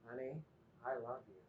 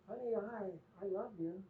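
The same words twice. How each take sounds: First: It is said in a warm, tender tone. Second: It is said in a questioning tone. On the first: The love is sincere and affectionate. The speaker calls it right. "But she'll embrace the third one" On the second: The love is doubted or uncertain. The speaker calls it wrong. "the questioning tone in my voice on the second one"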